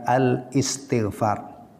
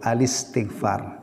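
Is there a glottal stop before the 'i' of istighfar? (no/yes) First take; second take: yes; no. First: A glottal catch separates 'al' from 'istighfar'. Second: The 'l' links smoothly into 'istighfar' without a catch. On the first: The speaker calls it wrong. "bukan al-istighfar" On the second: The speaker calls it right. "Bacanya yang benar itu al-istighfar"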